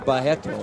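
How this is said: The name is said with a Brazilian pronunciation.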